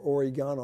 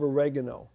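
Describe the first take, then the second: First: Oregano stressed on the third syllable, ore-GAH-no; alternative pronunciation. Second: Oregano stressed on the second syllable, o-REG-ano; alternative pronunciation. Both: Shown as a demonstration. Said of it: "however you wanna pronounce it".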